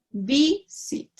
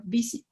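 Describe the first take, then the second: First: "visit" broken into two beats, "vi - sit"; split syllables. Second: Said in the usual way. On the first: Shown as a demonstration. Teacher explaining syllables in English, "visit" split as "vi - sit". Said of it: "no separamos las, las sílabas". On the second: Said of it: "En inglés es".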